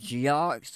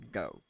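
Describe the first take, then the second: First: The word ends with an audible x sound. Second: The word ends on a vowel with no x. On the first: The speaker calls it wrong. "I know it sounds like geox" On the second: The speaker calls it right. "in the Cajun pronunciation, it's actually go"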